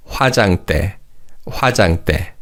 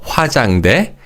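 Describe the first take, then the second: First: 화장대 with final 대 tensed, like 때; crisp tense tt starting the 대 of 화장대; correct pronunciation demo. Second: 화장대 with an untensed last syllable 대; mispronounced demo. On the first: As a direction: say 화장대 as hwa-jang-ttae. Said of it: "So it's not 화장대, but it's". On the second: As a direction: say 화장대 the wrong way, final 대 left lax. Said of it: "the 대 in the final syllable is read as". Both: Shown as a demonstration.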